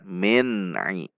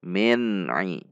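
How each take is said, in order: The two takes are said the same way.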